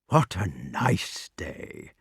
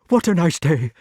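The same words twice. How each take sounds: First: It is said in soft, caressing tones. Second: It is said breathlessly, as if frightened.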